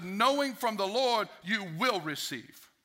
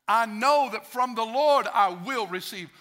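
First: Slow, leaning on "Knowing"; emphasis on knowing. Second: Slow and louder, leaning on "Lord"; emphasis on Lord. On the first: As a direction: stress "Knowing" at the start, slowly. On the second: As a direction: slowly stress "Lord" in "from the Lord I will receive". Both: Shown as a demonstration. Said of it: "sometimes you gotta bring different emphasis".

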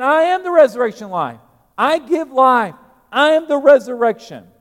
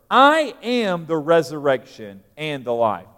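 First: Higher and louder, a booming pulpit proclamation of I am; proclaiming loudly. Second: Said in the usual way. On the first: Shown as a demonstration. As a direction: thunder it out to the congregation. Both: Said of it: "There it is".

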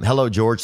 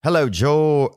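First: Said in the usual way. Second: Put-on failed Australian accent landing British; high-pitched, botched British-sounding greeting. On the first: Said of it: "not gonna try to impersonate your accent". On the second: Podcast host greeting an Australian caller, mistaken British accent. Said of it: "that's a British accent".

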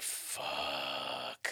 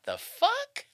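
First: "Fuck" long, low and soft; drawn-out expletive. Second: "fuck" very high and rising; incredulous question. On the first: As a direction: let "Fuck" stretch out in a low hush. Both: Shown as a demonstration. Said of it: "depending on the inflection".

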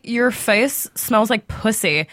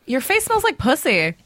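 First: "Your face smells like pussy" spelled out very slowly, each word weighted; slow emphatic repeat. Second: Said in the usual way. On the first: Retold or imitated. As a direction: repeat it slowly so he can't miss it. Repeating after "What?.

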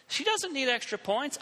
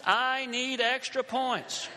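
First: DOESN'T hit hard in indignant protest; stress on DOESN'T. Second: I drawn out slowly and emphasized; slow protest, leaning hard on "I"; stress on I. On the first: Student objecting to classmate's greed, stress on "doesn't". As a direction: lean on "doesn't", higher-pitched. Contrasts her with himself. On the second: Struggling student claiming the points instead, slow stress on "I". Contrasts himself with her. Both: Retold or imitated.

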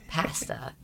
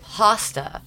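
First: Pasta with short A as in "cat", softer; Canadian pronunciation. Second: Pasta with an open AH, drawn out; American pronunciation. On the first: Canadian showing how she says pasta, Canadian pronunciation. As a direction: say "pasta" quietly as PASS-ta. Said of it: "ripping me for my Canadian accent". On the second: Line producer querying her Canadian word, American pronunciation. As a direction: say "pasta" slowly as PAH-sta. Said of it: "laughing at how they say". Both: Shown as a demonstration.

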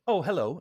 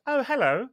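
First: Said in the usual way. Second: Put-on high, lilting English-accented greeting. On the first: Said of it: "oh, I, I said". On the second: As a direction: imitate an Englishwoman saying hello, pitched up high. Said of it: "in an English accent".

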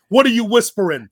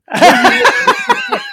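First: Louder, higher puzzled demand; mock impatient demand. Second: Much higher, loud, breaking into laughter; squealing laughing repeat. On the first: Mox demanding what his partner whispers, raised. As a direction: imitate an annoyed wrestler asking it. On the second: Retold or imitated. Mox's question repeated, collapsing into a laughing squeal. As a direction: shriek it while cracking up. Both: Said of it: "Mox is like".

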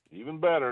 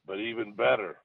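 First: "better" punched higher and louder; stress on better. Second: Said in the usual way. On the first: Shown as a demonstration. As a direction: lean hard into "better". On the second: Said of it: "and I'm gonna say this".

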